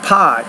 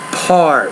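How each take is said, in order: First: The R sound in the word is dropped. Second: The R sound in the word is pronounced. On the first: The speaker calls it wrong. "it's not pot" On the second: The speaker calls it right. "but part. You want to you pronounce that R"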